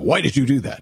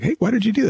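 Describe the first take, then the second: First: The question sounds accusing and judgmental. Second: The question sounds light and genuinely curious.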